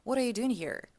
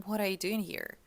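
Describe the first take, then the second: First: The final R in 'here' is pronounced. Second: The same.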